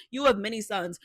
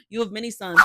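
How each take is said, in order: First: Said in the usual way. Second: Louder emphatic. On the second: Real, not acted. Repeats louder.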